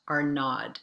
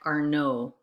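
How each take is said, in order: First: The name ends with a D sound. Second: The name ends without a D sound. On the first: The speaker calls it wrong. "not Arnaud" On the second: The speaker calls it right. "We don't pronounce the D in our name, so it sounds like Arnaud"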